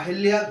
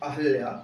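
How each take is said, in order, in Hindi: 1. 'h' ध्वनि के बाद 'i' स्वर आता है। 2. 'h' ध्वनि के बाद कोई स्वर नहीं आता। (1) "अहिल्या गलत शब्द है" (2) "अहल्या सही शब्द है"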